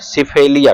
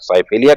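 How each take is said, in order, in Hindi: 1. पहला स्वर छोटी 'i' ध्वनि है। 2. पहला स्वर पूरी 'eye' ध्वनि है। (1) "सिफेलिया भी कह लीजिए" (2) "वाई को पूरा पढ़ते हैं"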